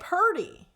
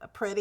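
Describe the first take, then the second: First: It is said with 'pur' and a d sound. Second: It is said with a clear 'pri' and a t. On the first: This is how the town to the south says it. "They would say purdy" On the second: This is how the speaker's own town says it. "like pretty is the word, right?"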